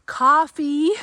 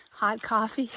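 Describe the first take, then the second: First: Excited. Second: Said in the usual way. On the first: Real, not acted. Listing treats, coffee a highlight.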